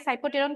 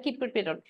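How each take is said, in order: First: সাইপ্রোটেরন begun with "সাই"; pronunciation variant. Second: কিপ্রোটেরন begun with "কি"; pronunciation variant. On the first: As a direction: say সাইপ্রোটেরন with a "সাই" sound up front. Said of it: "কেউ কেউ বলে সাইপ্রোটেরন". ("সাই" দিয়ে উচ্চারণ: সাইপ্রোটেরন) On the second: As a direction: say কিপ্রোটেরন with a "কি" sound up front. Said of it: "কেউ কেউ বলে কিপ্রোটেরন". ("কি" দিয়ে উচ্চারণ: কিপ্রোটেরন) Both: Shown as a demonstration.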